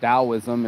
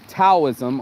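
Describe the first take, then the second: First: The word begins with a D sound. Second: The word begins with a T sound. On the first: "or a D" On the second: "with a T"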